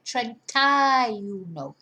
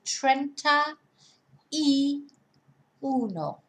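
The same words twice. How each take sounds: First: It is said smoothly with the words merged. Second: It is said slowly with each word separate. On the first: "when we speak in normally, everything sort of merges together" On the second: "if we said it slowly"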